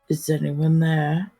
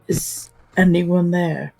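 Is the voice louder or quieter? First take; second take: quieter; louder. First: It is said in a lowered, quieter voice. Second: It is said a little louder than a hush. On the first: "Then lowers his voice, asking the same thing" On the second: "kind of a little bit louder maybe than the little hush tone"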